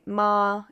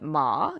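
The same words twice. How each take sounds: First: It is said in the first tone. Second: It is said in the third tone. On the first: It means mother. "the first tone, if I say ma" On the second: It means horse. "third tone"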